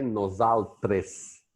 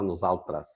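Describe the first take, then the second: First: "nosaltres" slowly, with a clear E in the last syllable; pronounced as written. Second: "nosaltras" with the last E turned to A; spoken Catalan pronunciation. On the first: Explaining Catalan spelling, slow as-written pronunciation. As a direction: say "nosaltres" slowly as spelt, ending in -tres. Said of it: "em catalão se escreve nosaltres". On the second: Explaining how Catalans say it, E as A. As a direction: say "nosaltras", ending in -tras. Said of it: "mas se fala nosaltras". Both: Shown as a demonstration.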